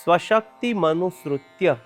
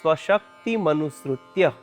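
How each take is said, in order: First: The three parts are run together as one word. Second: The same.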